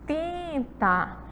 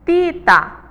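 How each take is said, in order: First: The first vowel is nasal, with air through the nose. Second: The first vowel is oral, with no nasal sound. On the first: The speaker calls it right. "já dá aí o som nasal" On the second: The speaker calls it wrong. "vai ser um som que vai sair apenas pela minha boca"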